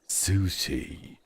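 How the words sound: It is said with an English pronunciation. "in English, it's sushi"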